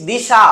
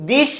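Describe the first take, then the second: First: দিশা ending on an open "aa"; added final vowel. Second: Said in the usual way. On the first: Shown as a demonstration. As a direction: add an aa after the sh in দিশা. (শেষে আ যোগ করে "দিশা") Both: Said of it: "লাস্টে যা আসছে".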